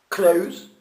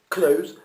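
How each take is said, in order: The two takes are said the same way.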